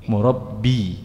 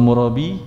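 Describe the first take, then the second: First: The b sound is doubled and held longer. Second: The b sound is single and short. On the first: It means an educator. "yang guru itu B-nya tasydid, ba-nya syiddah. Murabbi pendidik" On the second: It means a usurer. "Tapi kalau murabi tukang riba"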